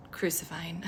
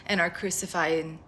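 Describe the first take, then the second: First: Crucifying breathed out in a soft whisper; a hushed echo of crucifying. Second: Said in the usual way. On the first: Acted. Repeats word, now whispered.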